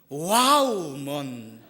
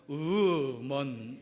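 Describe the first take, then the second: First: The first syllable sounds like 'wow'. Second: The first syllable sounds like a plain 'woo'. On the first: Women seem moving and beautiful to him. "감격적이고 아름다운 분은 와우먼 이렇게 되고" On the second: He feels like giving up with women. "너무 포기하고 싶고... 이 사람은 우먼 이렇게 되고"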